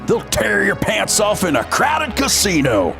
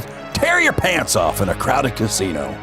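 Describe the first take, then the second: First: It is said in a put-on cowboy voice. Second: It is said in the speaker's normal voice.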